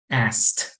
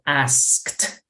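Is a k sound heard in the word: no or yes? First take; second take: no; yes. First: The k sound is dropped. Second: The k sound is clearly pronounced. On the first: "sin la K" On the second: "esa es la pronunciación correcta"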